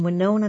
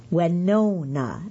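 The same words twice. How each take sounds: First: Said in the usual way. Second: Winona drawn out slowly as "weh-NOH-na"; colleague's Southern pronunciation. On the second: Retold or imitated. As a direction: stretch the middle of Winona, long lingering "no". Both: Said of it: "as she says it".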